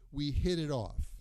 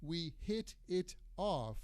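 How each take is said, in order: First: The T sounds are soft, like D sounds. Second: The T sounds are crisp, clear T sounds. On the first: "we usually say" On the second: "instead of saying"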